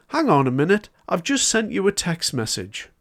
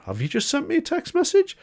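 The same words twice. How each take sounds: First: A hint of a polite recorded phone voice, a bit higher; automated phone system. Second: Incredulous echo. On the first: Retelling his broadband call to viewers, mildly imitating the automated system. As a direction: lightly imitate the broadband company's automated line. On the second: Retold or imitated. Recalling his own reaction to the automated call, incredulous and much higher. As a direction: pitch leaps much higher on "Have you just sent me a text message?" in mock disbelief. Echoing the system in disbelief.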